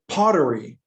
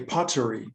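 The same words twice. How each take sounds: First: It is said in an American accent. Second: It is said in a British accent.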